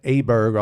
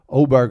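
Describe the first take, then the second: First: The name begins with an 'ah' vowel. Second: The name begins with an 'oh' vowel. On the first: The speaker calls it wrong. "I was pronouncing that Aberg all last week" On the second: The speaker calls it right. "I think is how you pronounce that"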